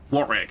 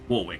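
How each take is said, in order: First: The middle w is silent. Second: The middle w is sounded. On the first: The speaker calls it right. "you do actually pronounce it Warwick" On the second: The speaker calls it wrong. "You do not pronounce it Warwick"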